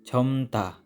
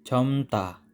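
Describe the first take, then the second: The two takes are said the same way.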